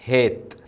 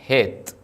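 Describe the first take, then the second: The two takes are said the same way.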